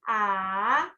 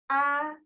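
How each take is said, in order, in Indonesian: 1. Nadanya turun lalu naik lagi. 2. Suku katanya sangat pendek tanpa nada. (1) "nada ketiga" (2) "itu nada ke nomor lima. Dia tidak menggunakan nada. Pendek sekali"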